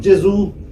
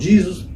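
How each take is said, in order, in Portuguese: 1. É pronunciado do jeito italiano. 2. É pronunciado do jeito inglês americano. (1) "os italianos falam Jesus" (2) "os americanos falam Jesus"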